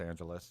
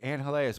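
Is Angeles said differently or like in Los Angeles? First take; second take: like Los Angeles; differently. First: Angeles is said as in Los Angeles. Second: Angeles is not said as in Los Angeles. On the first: This is what outsiders search for. "they call it Angeles because Los Angeles" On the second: This is the local name. "say it right"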